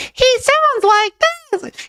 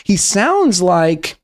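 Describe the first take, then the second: First: Extremely high, stretched-out squeak; Moftus. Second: Said in the usual way. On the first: Acted. Streamer corrects the imitation of a kid, even higher squeak. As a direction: push it up into a slow mock squeal. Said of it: "The frequency is higher than that".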